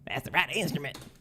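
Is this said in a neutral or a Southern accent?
neutral. It is said in the speaker's usual accent.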